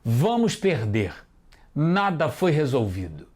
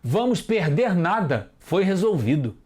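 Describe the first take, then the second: First: There is a pause after "perder". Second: There is no pause after "perder". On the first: We will lose; nothing was resolved. The speaker calls it right. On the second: The meaning is unclear. The speaker calls it wrong.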